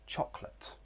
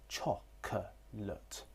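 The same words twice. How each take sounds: First: The middle vowel is dropped entirely. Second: A weak vowel is heard in the middle. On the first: "In fast connected speech, there would be elision with this schwa sound" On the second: "There is a schwa sound in the middle"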